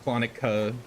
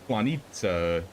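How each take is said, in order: First: The middle consonant is a plain k sound. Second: The middle consonant is a ts sound. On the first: The speaker calls it wrong. "it's not Klonika" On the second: The speaker calls it right. "That's how you pronounce the C"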